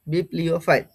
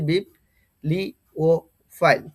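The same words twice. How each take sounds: First: Said in the usual way. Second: বিপ্লিওফাইল slowly split as bip, li, o, fail; each syllable of বিপ্লিওফাইল on its own; syllable-by-syllable pronunciation. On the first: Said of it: "এটার pronunciation হবে". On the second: Shown as a demonstration. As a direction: spell out the sounds of বিপ্লিওফাইল with clear gaps. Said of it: "আমি বাংলায় লিখে দিয়েছি".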